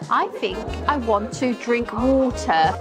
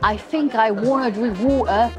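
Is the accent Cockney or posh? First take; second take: posh; Cockney. First: It is spoken in a posh British accent. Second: It is spoken in a Cockney accent, th as f. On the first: "이거 앞이 발음이죠" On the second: "커피 발음으로 할 때는 I think가 th가 F로 변합니다"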